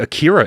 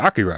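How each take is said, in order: First: It is said with an anglicized pronunciation. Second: It is said with a Japanese-style pronunciation. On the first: The speaker calls it wrong. "we don't say Akira anymore" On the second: The speaker calls it right. "we learned how to pronounce it properly"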